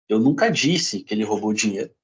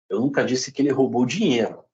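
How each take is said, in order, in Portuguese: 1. A palavra 'disse' tem o acento principal. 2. A palavra 'dinheiro' tem o acento principal. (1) "Pode, posso ter escrito" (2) "Pode ter roubado outra coisa"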